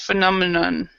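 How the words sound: It is said with a narrow mouth, mumbled. The speaker calls it wrong. "your mouth is not not wide enough"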